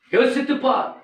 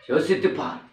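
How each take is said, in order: First: யோசித்துப் said much higher and louder; loud preaching call. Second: Said in the usual way. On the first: Shown as a demonstration. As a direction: cry out the warning to think. (உரத்த குரலில் அழைப்பு)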